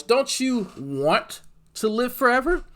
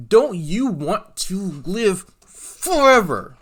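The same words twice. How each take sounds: First: High, slow coaxing question, rising on "forever"; hammed-up invitation, pitch lifting at the end; mock preacher appeal. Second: High, loud, very drawn out, falling on "forever"; booming mock preacher. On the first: Streamer coaxing folks toward salvation, mock preacher question. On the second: Streamer pressing folks about salvation, hammed-up booming preacher. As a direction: stretch every word, belt out "forever".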